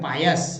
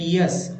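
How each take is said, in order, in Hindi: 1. पहला स्वर 'ah' जैसा सुनाई देता है। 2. पहला स्वर 'ee' जैसा सुनाई देता है। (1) "आ लगा के पायस" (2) "ई लगा के पियस"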